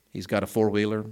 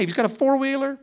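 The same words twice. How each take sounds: First: Said in the usual way. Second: Four-wheeler hit high and loud in disbelief; amazed. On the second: Retold or imitated. Pastor telling church about neighbor boy, mock amazed. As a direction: marvel that a kid owns a four-wheeler. Bragging about a rich five-year-old.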